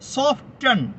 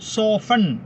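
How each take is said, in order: First: The t in the middle is sounded. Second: The t in the middle is silent. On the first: "സോഫ്റ്റൺ എന്ന് എഴുതുന്നു" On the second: "വായിക്കുമ്പോൾ ടി ഉച്ചരിക്കാറില്ല"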